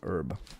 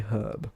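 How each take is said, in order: First: The word is said the American way. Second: The word is said the British way. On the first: "and Americans say herb" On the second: "but they do say herb"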